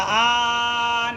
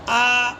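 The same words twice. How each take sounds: First: The vowel is stretched out much too long. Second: The vowel is held for a short two counts. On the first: The speaker calls it wrong. "आ नहीं होगा, ज़्यादा खींचना नहीं, ये गलत है ज़्यादा खींचना" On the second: The speaker calls it right. "इतना ही होगा"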